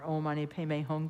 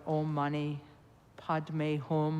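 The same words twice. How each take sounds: First: The mantra is pronounced in the Tibetan way. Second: The mantra is pronounced in the Sanskrit way. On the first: "or Tibetan" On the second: "Sanskrit pronunciation"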